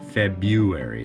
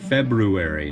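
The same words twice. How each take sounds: First: The r is dropped, with a y sound instead. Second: The r after 'Feb' is clearly pronounced. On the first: The speaker calls it wrong. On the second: The speaker calls it right. "There's no Y. There is an R"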